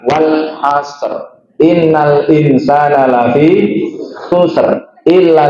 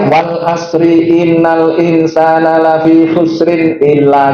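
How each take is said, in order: First: The words end on a bare r sound. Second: The words end with added vowel endings. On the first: The speaker calls it right. "Yang tepat adalah" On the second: The speaker calls it wrong. "itu bacaan yang tidak tepat"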